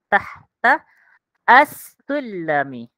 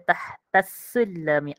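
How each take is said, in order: First: Each word is said separately, one by one. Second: The two words run together into one. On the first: "itu cara kita baca satu persatu" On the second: "Kita kena baca tahtas sulami"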